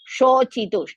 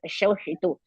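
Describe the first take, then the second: First: The middle consonant is a 'ch' sound. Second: The middle consonant is an 'sh' sound. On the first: The speaker calls it right. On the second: The speaker calls it wrong.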